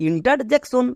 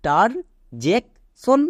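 First: ইন্টারজেকশন said all together as one word; showing how to blend it; blended whole word. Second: ইন্টারজেকশন split into slow separate syllables; teacher spelling out each part. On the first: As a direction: join the parts of ইন্টারজেকশন smoothly. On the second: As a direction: break ইন্টারজেকশন up, very slowly. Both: Shown as a demonstration. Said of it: "এবার একে একসাথে উচ্চারণ করো".

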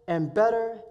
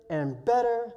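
The two takes are said the same way.

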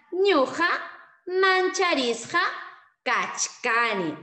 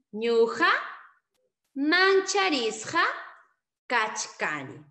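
First: Ñuqa Mancharisqa kachkani slow, loud and high, word by word; slow loud model. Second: Slow repeat. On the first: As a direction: drill it slowly for the class. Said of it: "Entonces será". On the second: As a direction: repeat it spaced out for the class. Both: Shown as a demonstration.

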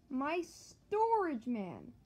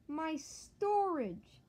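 First: Mock despair, stretched long; anguished wail. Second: Slow drawn-out wail, higher; mock despair, stretched long; anguished wail. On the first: Losing storage in game. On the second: Losing storage again. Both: Real, not acted. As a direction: wail it out in dismay.

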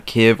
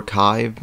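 First: Kyiv as one short KIV; alternative pronunciation. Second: Kyiv as one long KYVE; alternative pronunciation. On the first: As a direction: say Kyiv to rhyme with give. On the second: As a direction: say Kyiv to rhyme with five. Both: Shown as a demonstration. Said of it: "I don't know how you pronounce it".

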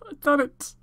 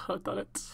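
First: Much higher and louder triumphant shout; joyful yell of victory. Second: Breathless whisper, softer, almost to yourself; hushed disbelief before the shout. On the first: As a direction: let it burst out after the whisper. Shouted after the whisper. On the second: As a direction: whisper it in awe. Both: Real, not acted.

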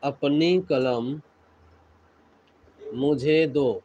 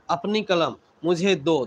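First: Slow, broken into chunks; a teacher dictating slowly, pausing between phrases; slow dictation. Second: Said in the usual way. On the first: Shown as a demonstration. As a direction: spell it out slowly for the class. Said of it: "teacher repeats slowly, word by word". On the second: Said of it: "teacher repeats at normal pace".

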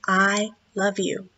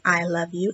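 First: Softer, slow loving words; tender. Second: Softer, gentle loving words; tender. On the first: Explaining a heart to the child, soft and tender. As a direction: say it softly with love. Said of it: "can mean". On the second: Explaining valentines to the child, soft and tender. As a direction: say it softly, full of love. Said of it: "a way of saying". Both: A narrator's reading.

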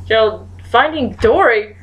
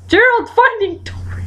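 First: Said in the usual way. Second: High-pitched exasperated cry; insistent repeat. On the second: Real, not acted.

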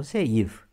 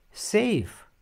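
First: Safe wrongly stressed on i, 'se-IF'. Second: Safe as one syllable, high falling stress on e; correct Safe. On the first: Teacher shows the mistake to avoid, safe as 'se-IF'. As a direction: break safe in two, stress the second vowel. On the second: Teacher models the right form, Safe stressed on e. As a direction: Safe said 'SEIF', pitched up then falling. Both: Shown as a demonstration. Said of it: "Nu safe".

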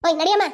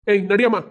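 First: Loud rising call to move; loud order. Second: Barked command to move; police officer barking at suspect; loud order. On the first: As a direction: order her out, pushing. Constable echoing order. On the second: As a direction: push her along with a shout. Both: Acted.

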